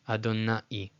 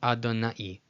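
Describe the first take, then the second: The two takes are said the same way.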